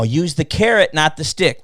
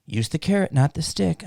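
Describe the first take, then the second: First: Said in the usual way. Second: Softer, lightly imitated motherly advice; quoting mom. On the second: Quoting his mom's advice to him, lightly imitated. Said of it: "Like my mom used to tell me".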